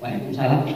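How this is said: The greeting is said in a curt, sulky tone. The household is full of irritation. "Jawab sih salamnya tapi jutek banget"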